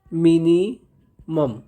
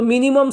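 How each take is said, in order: First: minimum very slow, broken as mini, मम; syllable by syllable. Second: Said in the usual way. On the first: Shown as a demonstration. Teacher dictating a key term, very slow and broken up. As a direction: stretch minimum out with a gap before the last syllable.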